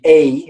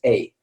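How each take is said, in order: First: Rising, lengthened "a" as in Spanish; longer Spanish sound. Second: Falling, quicker "a" as in English; shorter English sound. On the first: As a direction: say "a" as a drawn-out "ay". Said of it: "it would be longer". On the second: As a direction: say "a" as a brief "ay" with a short i ending. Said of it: "but English is a". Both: Shown as a demonstration.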